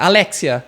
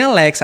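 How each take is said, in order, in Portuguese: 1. O nome termina com o som '-xia' acrescentado. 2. O nome termina com o som simples de '-xa'. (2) "não fala nem Alexa"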